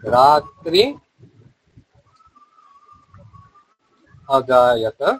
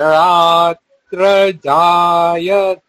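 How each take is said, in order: First: The two words are said as separate words. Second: The two words are run together as one. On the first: "এখানে হচ্ছে যে রাত্রি অজায়ত" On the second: "এটা সন্ধি হয়ে হয়ে গেছে"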